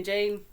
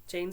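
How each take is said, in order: First: Jean called out loud and bright, stretched; eager call. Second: Said in the usual way. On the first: Acted. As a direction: call "Jean" loudly to pull her up. Kate calls Jean to dance.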